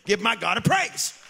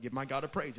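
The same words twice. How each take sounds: First: "Give my God a praise" shouted with a rise on "praise"; "Give my God a praise" called out loud, rising on "praise". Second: Said in the usual way. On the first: Acted. Calls for praise again louder.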